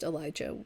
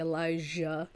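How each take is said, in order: First: The J is pronounced as a hard J. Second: The J is pronounced as a soft sound. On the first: This is how the speaker personally says it. "hard J because I'm weird and I've always pronounced Elijah like that" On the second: This is how many other people say it. "a lot of people say Elijah"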